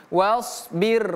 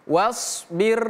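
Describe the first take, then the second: Both takes have the same delivery.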